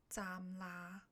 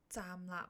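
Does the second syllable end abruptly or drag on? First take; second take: drags on; abruptly. First: The second syllable is drawn out with no stop. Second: The second syllable ends in a short, clipped stop. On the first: The speaker calls it wrong. "假如你拖长了来说，没有up 的那一下呢" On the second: The speaker calls it right. "有一定要有一个停顿，讲那个字不能拖长来说"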